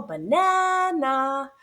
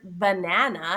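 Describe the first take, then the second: First: BANANA with NAN called high and long; stressed middle syllable. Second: Said in the usual way. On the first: Shown as a demonstration. Teacher showing the stressed syllable, drawn-out "banana". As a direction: call out "banana", slowly, stretching the middle. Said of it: "loud and clear stressed syllables in the middle".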